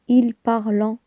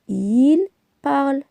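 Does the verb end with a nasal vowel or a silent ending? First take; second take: nasal vowel; silent ending. First: The verb ends with a nasal vowel sound. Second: The verb ends with a silent ending. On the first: The speaker calls it wrong. "On ne dit pas" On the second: The speaker calls it right. "la terminaison E N T se prononce E"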